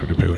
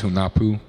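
First: The name is pronounced in a reduced, casual way. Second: The name is pronounced fully and carefully. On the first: This is how most people say it. "everyone calls it Hunapu" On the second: This is the technically correct name. "Technically, it's Hunapu"

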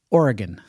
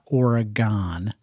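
First: It is pronounced the way locals say it. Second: It is pronounced the way non-locals say it. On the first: The speaker calls it right. "That's what the locals say" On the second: The speaker calls it wrong. "Not Oregon"

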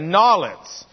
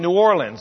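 First: The name is said the local New Orleans way. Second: The name is said in a general American way.

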